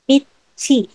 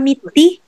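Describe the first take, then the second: First: The consonant before the final vowel is 'ch'. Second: The consonant before the final vowel is 'd'. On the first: The speaker calls it right. "but it's meaty" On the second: The speaker calls it wrong. "hindi siya meaty"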